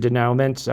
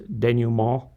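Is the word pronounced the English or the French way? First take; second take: English; French. First: The word has an anglicized English pronunciation. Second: The word has a French-style pronunciation. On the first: "You can pronounce it denouement" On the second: "I believe the French is denouement"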